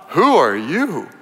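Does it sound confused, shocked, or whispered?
shocked. It is said in a shocked, awed tone.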